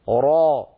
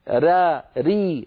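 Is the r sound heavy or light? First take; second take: heavy; light. First: The r sound is heavy and full. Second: The r sound is light and thin. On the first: "الراء مفخمة" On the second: "هذه مرققة"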